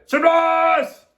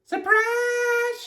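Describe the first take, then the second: First: Loud, high party cheer; group shout. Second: Very high, drawn-out squeal; Amelia Bedelia's shout. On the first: All the ladies greet the guest, shouting. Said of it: "all the ladies shouted". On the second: Amelia Bedelia greets the guest, shouting high. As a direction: stretch it out way up high, no extra volume. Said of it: "shouted Amelia Bedelia". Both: A narrator's reading.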